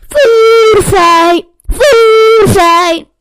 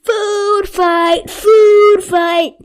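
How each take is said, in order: First: Very loud high screaming cry. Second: Loud high excited yell; shouting. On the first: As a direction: scream it with all you have. Retake, much louder. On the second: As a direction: yell it to start the chaos. Narrator yells food fight. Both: A narrator's reading.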